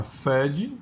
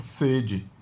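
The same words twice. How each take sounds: First: Sede with an open e and a rising end, meaning place. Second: Sede with a closed e and a falling end, meaning thirst. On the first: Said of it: "mesma grafia, mas a pronúncia é diferente". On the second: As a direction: say sede with the closed e and let it fall. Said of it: "mas a pronúncia é diferente". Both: Shown as a demonstration.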